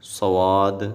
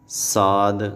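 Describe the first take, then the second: First: The letter is said with a w-glide. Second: The letter is said light, not heavy. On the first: "सवाद ऐसे भी नहीं पढ़ेंगे" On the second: "साद ऐसे नहीं पढ़ना"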